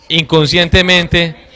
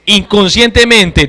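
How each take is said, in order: First: Said in the usual way. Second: Inconscientemente repeated louder, with every syllable leaned on; emphatic repeat. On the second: Shown as a demonstration. Teacher stressing the word to parents, emphatic repeat. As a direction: hammer inconscientemente home on the second take.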